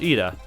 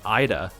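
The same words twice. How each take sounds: First: The name begins with an 'ee' sound. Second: The name begins with an 'eye' sound. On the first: The speaker calls it right. "Just pronounce E instead of, like, whatever I there is" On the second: The speaker calls it wrong. "A lot of people pronounce it like Ida. Like Idaho"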